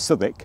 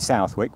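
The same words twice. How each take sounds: First: The name is said the local way. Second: The name is said in a non-local way. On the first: "locally it's" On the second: "if you want to pronounce it"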